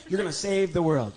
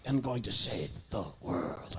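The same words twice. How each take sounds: First: Said in the usual way. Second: Low, slow, mock-grand puppet vow; deep, deliberate dummy declaration; solemn puppet. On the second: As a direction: drag it out like a puppet making a vow. Puppet repeats line solemnly.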